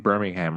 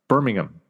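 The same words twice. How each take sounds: First: Birmingham is said the American way. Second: Birmingham is said the British way. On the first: The speaker calls it wrong. "Like it's Alabama" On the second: The speaker calls it right. "The second one, right?"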